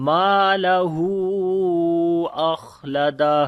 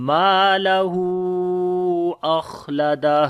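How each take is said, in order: Both takes have the same delivery.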